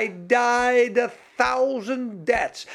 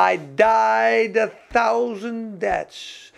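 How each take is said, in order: First: Said in the usual way. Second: Slow, stretched imitation of the preacher; lightly voiced, each word drawn out; "died" held long and falling, slow and solemn. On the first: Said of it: "repeats the quote in own voice". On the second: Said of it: "Maar ze zei".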